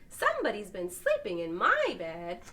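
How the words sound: It is said in the medium-sized mama bear's voice.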